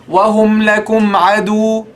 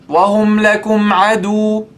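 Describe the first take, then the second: The two takes are said the same way.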